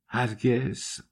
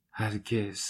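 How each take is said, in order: First: Hushed, softer "هرگز" with a slight rise; soft whispered never. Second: "هرگز" repeated far softer, trailing down; fainter whispered echo. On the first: Dunya softly refuses Svidrigailov's love, hushed. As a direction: breathe "هرگز" almost under the breath. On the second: Dunya echoes her refusal to Svidrigailov in a fading whisper. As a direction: let the second "هرگز" fade to a bare whisper. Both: Acted. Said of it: "دختر زمزمه کرد".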